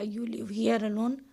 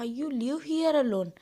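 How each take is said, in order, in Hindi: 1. यह सादे और सरल ढंग से बोला गया है। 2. यह उत्साह के साथ बोला गया है। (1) "अगर मैंने सिंपल बोला" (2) "एक्साइट होके कहा"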